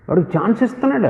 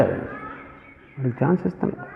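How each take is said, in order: First: Said in the usual way. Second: Soft, slowed repeat. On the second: Shown as a demonstration. Preacher repeats to the church, much softer and slower. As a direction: drop much softer and slow down.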